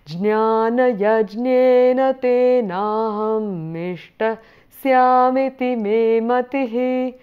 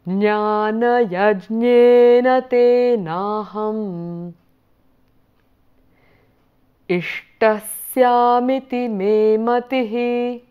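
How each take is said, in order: First: The phrase runs together with the sound join. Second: A pause breaks the phrase, undoing the sound join. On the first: This is the required normal recitation. "Otherwise we are required to do it together" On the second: The pause lets listeners repeat after the speaker. "because I was pausing there for you to repeat after, I broke the sandhi there"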